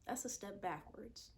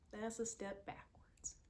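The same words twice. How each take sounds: First: Said in the usual way. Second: Whispered. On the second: Real, not acted. Repeated, whispered.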